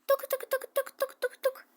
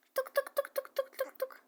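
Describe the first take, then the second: First: High mouth-made knocking; quick high playful knocking; knock knock sound. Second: High hushed knocking made with the mouth; a soft high tapping knock; soft knock sound. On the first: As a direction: tap out a knock with your voice. Knocking at the door. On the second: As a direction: knock quietly with your voice. Knocking at the door again. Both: Pretend.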